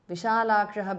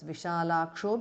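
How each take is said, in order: First: The word ends with a breathy 'aha' sound. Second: The word ends with an 'o' vowel sound. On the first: The word stands on its own. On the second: The word is joined to the next word.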